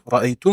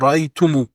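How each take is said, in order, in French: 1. Le mot se termine par la consonne m. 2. Le mot se termine par une voyelle u ajoutée. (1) "Au lieu de dire tum, ra'aytum" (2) "on dira ra'aytumu"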